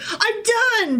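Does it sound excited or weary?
excited. It sounds excited and celebratory.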